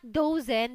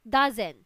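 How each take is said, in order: First: The first vowel sounds like 'oh'. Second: The first vowel sounds like 'ah'. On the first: The speaker calls it wrong. "This is not dozen" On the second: The speaker calls it right. "even though it's O, it sounds like ah"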